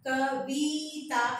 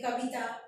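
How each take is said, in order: First: The vowel in the second syllable is drawn out long. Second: The vowel in the second syllable is kept short. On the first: The speaker calls it wrong. "कविता ऐसा नहीं बोलते" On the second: The speaker calls it right. "छोटी ई की मात्रा है, जिसका उच्चारण लंबा नहीं होता है"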